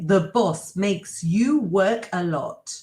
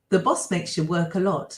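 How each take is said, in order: First: The sentence is said at a slower pace. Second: The sentence is said at a fast pace.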